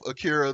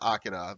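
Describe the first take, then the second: First: The name is said with an American pronunciation. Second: The name is said with a Japanese pronunciation. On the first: The speaker calls it wrong. "the American pronunciation" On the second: The speaker calls it right. "the correct pronunciation"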